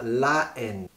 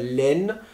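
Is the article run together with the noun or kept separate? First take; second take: separate; run together. First: The article is kept separate before the noun. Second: The article is elided and linked into the noun. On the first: The speaker calls it right. "On va dire la haine" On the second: The speaker calls it wrong. "On ne va pas dire laine"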